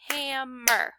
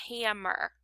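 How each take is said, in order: First: "Hammer" broken into ham and mer; two stretched, distinct beats on "Hammer"; clapped-out syllables. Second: Said in the usual way. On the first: Shown as a demonstration. Teacher breaking up the word for pupils, "Hammer" in two separated beats. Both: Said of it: "If I clapped out".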